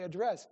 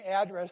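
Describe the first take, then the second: First: The stress is on the second syllable. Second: The stress is on the first syllable. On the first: This is how most people say it, echoing 'dress'. The speaker calls it right. "they say address" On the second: This is the speaker's own rural way of saying it. The speaker calls it wrong. "Most people don't say address"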